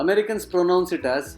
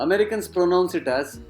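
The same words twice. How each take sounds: No difference in how they are said.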